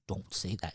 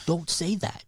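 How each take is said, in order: First: Soft, low scolding while trying not to laugh; a muted half-stern don't say that; hushed warning holding back a laugh. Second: Said in the usual way. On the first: Retold or imitated. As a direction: say it quietly, fighting a snicker. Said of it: "I kinda started snickering". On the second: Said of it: "And I go".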